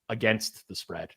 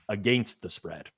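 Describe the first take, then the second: First: It is said with an American pronunciation. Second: It is said with a Canadian pronunciation. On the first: "Like I say against the spread now" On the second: "Canadians typically say against the spread"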